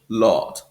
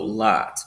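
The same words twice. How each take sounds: First: The vowel is a short rounded oh. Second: The vowel is open, back and unrounded. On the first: "a bit more forward and rounder" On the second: "it's a back open I sound"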